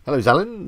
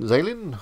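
First: Zalin with a short a, as in "cat", rising; trying a pronunciation. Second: Zalin with a long a, as in "day"; second pronunciation. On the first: Streamer greeting a viewer, trying Zalin with a short a. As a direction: say Zalin as ZAL-in, like a question. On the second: Streamer correcting a viewer's name, Zalin with a long a. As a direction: say Zalin as ZAY-lin, high and falling. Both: Real, not acted.

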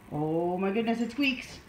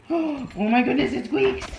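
First: Understated pet-talk surprise; mild amazement. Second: Gasp, then loud thrilled wonder; big delighted pet-talk surprise; excited amazement. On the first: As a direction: marvel gently for the dog. First of two reactions to squeak. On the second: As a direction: gasp and gush loudly for the dog. Repeats it bigger for the dog. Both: Real, not acted.

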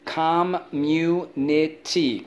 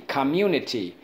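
First: "Community" slowly as com, mu, ni, ty, pitched up; slow, higher breakdown of "Community"; syllable by syllable. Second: Said in the usual way. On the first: Shown as a demonstration. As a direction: sound out "Community" in four beats. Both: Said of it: "Let's go".

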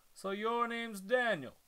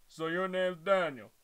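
First: Said in the usual way. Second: A light try at a dumb henchman voice, a bit louder; Kronk impression. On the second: Shown as a demonstration. Reader trying to voice the big guy as Kronk, lightly. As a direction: attempt a big lunk of a henchman. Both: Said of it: "I'm trying to do a Kronk impression".

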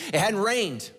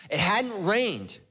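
First: Said in the usual way. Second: "It hadn't rained" dragged out slowly; slow heavy repeat for weight; slow emphatic repeat. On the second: Real, not acted. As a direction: let each word land, slowly. Repeated line, second slowed.

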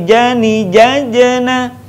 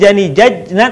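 First: 'jajena' chanted high, the second j echoing into a short vowel; bouncing jim. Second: 'jajna' with the j closed straight onto the n; jim without bounce. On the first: Teacher correcting the mistake, 'jajena' with bouncing j. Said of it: "suaranya mantul". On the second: Teacher showing the mistake, 'jajna' with no bounce. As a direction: say 'jajna' with no little vowel after j. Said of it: "Bukan jani, jajna". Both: Shown as a demonstration.

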